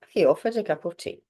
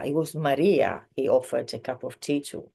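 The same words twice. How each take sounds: First: Said in the usual way. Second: Emphasis on "Maria", rest of the sentence lighter; stress on Maria. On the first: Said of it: "we're talking about more of the tea". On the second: Shown as a demonstration. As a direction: make "Maria" the word that stands out. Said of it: "we're putting emphasis on Maria".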